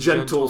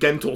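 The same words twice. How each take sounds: First: The word begins with a J sound. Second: The word begins with a hard G sound. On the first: The speaker calls it right. "The G can be pronounced as a J" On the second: The speaker calls it wrong. "You're not"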